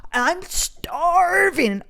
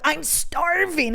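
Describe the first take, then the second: First: High, hugely drawn-out wail of hunger; hammed-up starving complaint, very slow; May. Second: High, drawn-out STARVING, less extreme; hammed-up hunger, moderately stretched; hungry complaint. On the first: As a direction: stretch STARVING into a high dramatic whine. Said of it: "I just kinda sounded like May". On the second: Redoes her starving complaint.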